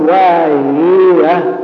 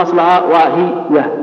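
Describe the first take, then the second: First: واهية with the vowels stretched until the yaa doubles; over-lengthened vowels. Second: Said in the usual way. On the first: Shown as a demonstration. Teacher showing the over-lengthening error, واهية stretched slowly. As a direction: drag out واهية, over-filling the short vowel. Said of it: "إذا أشبعتها قلت". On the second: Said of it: "إذا أشبعتها".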